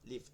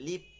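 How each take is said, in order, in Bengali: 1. শব্দটি f ধ্বনি দিয়ে শেষ হয়। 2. শব্দটি p ধ্বনি দিয়ে শেষ হয়। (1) "তো এখানে বলতে হবে ফা" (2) "আবার লিপ বলা যাবে না"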